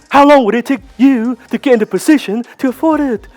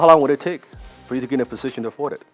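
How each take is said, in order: First: It sounds eager and attached to the answer. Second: It sounds relaxed and detached from the answer. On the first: The speaker needs the deal to happen. The speaker calls it wrong. "let me do it the wrong way" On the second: The speaker does not need the deal to happen. The speaker calls it right. "It needs to be like, hmm"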